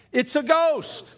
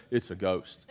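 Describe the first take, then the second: First: High, slow, loud cry of fright; shouted ghost line. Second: Low, soft gasp of fear; hushed frightened cry; scared ghost line. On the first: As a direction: yell it like you just saw a ghost. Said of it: "Come on, wait, wait, no". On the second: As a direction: breathe it out in terror. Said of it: "if you saw a ghost, you're gonna". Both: Shown as a demonstration.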